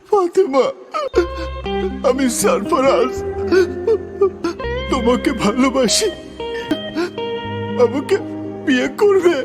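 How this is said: It is said with strong emotion.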